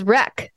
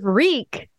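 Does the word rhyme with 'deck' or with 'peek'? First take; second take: deck; peek. First: The vowel is short, like in 'deck'. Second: The vowel is long, like in 'peek'. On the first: The speaker calls it wrong. "People think that W-R-E-A-K is wreck" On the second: The speaker calls it right. "Instead of wreak"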